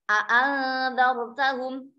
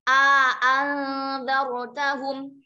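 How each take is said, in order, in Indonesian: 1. Kedua vokal dibaca pendek dan terpisah dengan jelas. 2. Vokal pertama dipanjangkan sebelum vokal kedua. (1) "Tahqiq hamzahnya dua-duanya, kemudian tidak ada bacaan panjang" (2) "Kalau ma'al idkhal berarti hamzah yang pertama panjang"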